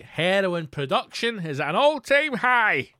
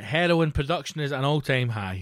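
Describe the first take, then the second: First: Loud, high, drawn-out proclamation; showman's rising, booming repeat; triumphant announcement. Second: Said in the usual way. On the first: Acted. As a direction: proclaim it like glorious news to a crowd.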